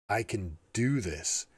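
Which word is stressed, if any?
do. The word "do" is stressed.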